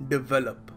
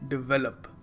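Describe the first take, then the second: The two takes are said the same way.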